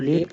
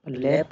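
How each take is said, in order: First: लेप with a closed ay; long A sound. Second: लैप with an open a; short A sound. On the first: Teacher offering a misreading, लेप with long a. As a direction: say लेप as in "lape". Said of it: "लेप क्यों नहीं बोलेंगे". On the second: Teacher confirming the reading, लैप with short a. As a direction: say लैप with a as in cat. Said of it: "लैप बोलेंगे". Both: Shown as a demonstration.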